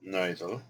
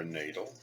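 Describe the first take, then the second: First: "Nidal" as NYE-dul, questioning rise; trial pronunciation. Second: "Nadal" as NAY-dul, questioning rise; alternative pronunciation. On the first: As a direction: say "Nidal" with a long i, unsure. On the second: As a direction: say "Nadal" with an ay sound, unsure. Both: Shown as a demonstration. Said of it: "I don't know how to pronounce these".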